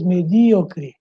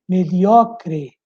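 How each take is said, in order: First: "medíocre" stressed me-DÍ-o-cre; Portuguese stress on DÍ. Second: "mediocre" stressed me-DIO-cre; Spanish stress on O. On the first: Teacher contrasting Portuguese, stressed on DÍ. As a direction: hit DÍ in "medíocre". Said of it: "em português". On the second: Teacher showing Spanish word, stressed on O. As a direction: punch the O in "mediocre". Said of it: "em espanhol". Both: Shown as a demonstration.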